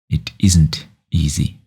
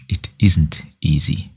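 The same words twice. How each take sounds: First: The word 'isn't' is said most strongly. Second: The word 'isn't' is said most strongly.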